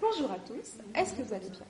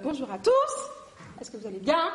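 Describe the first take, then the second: First: The end of the sentence is softened. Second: The end of the sentence is strongly accented.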